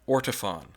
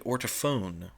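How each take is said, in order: First: The last syllable sounds like fawn. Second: The last syllable sounds like phone. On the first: "for years I called this company Ortofon. Fawn, right?" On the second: "it should be ortophone"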